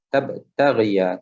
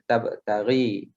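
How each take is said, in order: First: The final ya is voiced with a, ending -ghiya. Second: The final ya is silent, ending in -ghi. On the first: The speaker calls it right. "Tetapi dihidupkan tabtaghiya" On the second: The speaker calls it wrong. "Tak boleh baca tabtaghi"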